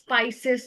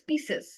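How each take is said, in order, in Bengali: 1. প্রথম সিলেবলটি 'spy' এর মতো শোনায়। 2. প্রথম সিলেবলটি 'spee' এর মতো শোনায়। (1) "স্পাইসেস না এরকম করে উচ্চারণটা করেছিলেন" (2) "উচ্চারণটা হচ্ছে স্পিসেস"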